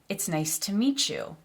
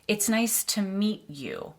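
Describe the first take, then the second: First: Meet and you merge into a ch sound. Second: Meet and you are kept apart with a t. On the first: The speaker calls it right. "The T and the Y come together and make a ch sound" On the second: The speaker calls it wrong. "a native English speaker wouldn't say"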